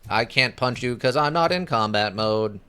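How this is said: It is said in a put-on robot voice.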